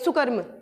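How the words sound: The word is said fast, prefix run together. The speaker calls it wrong. "Fast ऐसे नहीं बोलेंगे"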